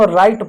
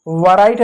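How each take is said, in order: First: राइट said as "rait", no w sound; correct pronunciation. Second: वराइट with the w sounded, "varait"; wrong pronunciation. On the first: Teacher shows students the right way: राइट as "rait". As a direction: say राइट with a silent w, plain "rait". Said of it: "इसको हम राइट पढ़ते हैं". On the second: Teacher shows students the wrong way: वराइट with a voiced w. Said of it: "वराइट नहीं पढ़ते हैं". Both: Shown as a demonstration.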